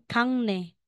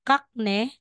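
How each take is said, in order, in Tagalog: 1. Nagtatapos ang unang pantig sa tunog na ng. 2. Nagtatapos ang unang pantig sa tunog na k. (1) "magiging Kangne" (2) "instead na sasabihin mong Kakne"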